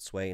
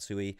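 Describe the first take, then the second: First: It is said as one syllable, like 'sway'. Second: It is said as two syllables, like 'soo-ee'. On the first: The speaker calls it right. "Apparently that's how you pronounce it" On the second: The speaker calls it wrong.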